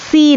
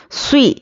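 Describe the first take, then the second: First: سی said with a thin plain seen, the mistake; wrong light seen. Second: سوی with a thick, heavy emphatic ص; heavy saad. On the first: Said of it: "سی نہیں". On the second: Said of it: "سواد کو بھی موٹا پڑھنا ہے". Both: Shown as a demonstration.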